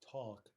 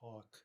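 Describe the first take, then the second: First: The L sound is pronounced in the word. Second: The L sound is left out of the word. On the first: The speaker calls it right. "I think we normally do say the L" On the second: The speaker calls it wrong. "I don't think we say talk"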